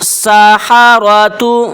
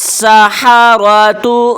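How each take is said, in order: The two takes are said the same way.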